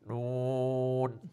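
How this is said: The nasal sound is blocked and cut off. "চাপ দিয়ে যদি করি"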